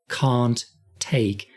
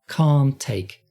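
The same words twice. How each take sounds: First: The T of can't is clearly released. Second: The T sounds of can't and take merge. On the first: The speaker calls it wrong. "we don't hear a clear can't take" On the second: The speaker calls it right. "We hear can't take"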